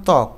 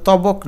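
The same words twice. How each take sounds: First: ত্বক said as one syllable, tok, with no ব sound; ত্বক with the ব silent, just t-o-k; correct pronunciation. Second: তবক said as two syllables, ta-bok, with the ব sounded; তবক spelt out as it is written, ব pronounced; wrong spelling-out pronunciation. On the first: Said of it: "এটার উচ্চারণ ত্বক". (ত্বক উচ্চারণ, ব উচ্চারিত হয় না) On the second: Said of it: "এটার উচ্চারণ কিন্তু তবক না". (তবক উচ্চারণ, ব স্পষ্ট করে বলা) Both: Shown as a demonstration.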